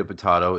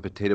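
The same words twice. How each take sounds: First: "potato" as puh-TAH-toh; broad-A pronunciation. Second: "potato" as puh-TAY-toh; long-A pronunciation. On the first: Guest joking about the other reading, "potato" as puh-TAH-toh. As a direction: say "potato" with the vowel of "father". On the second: Guest joking about both readings, "potato" as puh-TAY-toh. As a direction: say "potato" with the vowel of "day". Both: Shown as a demonstration. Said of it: "how are we pronouncing that word?".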